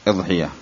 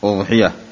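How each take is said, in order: First: The first vowel is i, as in iḍḥiyya. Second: The first vowel is u, as in uḍḥiyya. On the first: "ويجوز كسرها" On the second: "بضم الهمزة"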